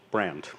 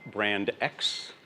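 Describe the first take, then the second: First: It is said as the single word brand. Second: It is said as two words, brand X. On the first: The speaker calls it right. "I just call it brand" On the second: The speaker calls it wrong. "it is not brand X"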